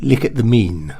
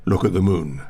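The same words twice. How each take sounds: First: "mean" for moon, "lick" for look; exaggerated modern posh fronted vowels. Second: Said in the usual way. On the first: Shown as a demonstration.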